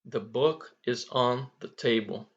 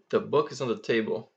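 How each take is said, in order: First: Each word is pronounced clearly and separately. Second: The words are shortened and run together. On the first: "falando assim, todo mundo é capaz de entender isso" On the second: "Ele vai encurtar, vai emendar palavras com as outras"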